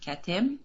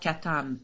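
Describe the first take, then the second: First: The second vowel sounds like 'e'. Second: The second vowel sounds like 'a'. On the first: The word means last or the end. "It can be pronounced Katem, last, the end" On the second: The word means the seal. "or Katam, the seals"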